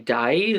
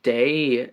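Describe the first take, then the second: First: The vowel sounds like the one in 'die'. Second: The vowel sounds like the one in 'day'. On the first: The speaker calls it right. "it should be die then" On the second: The speaker calls it wrong. "It's not day"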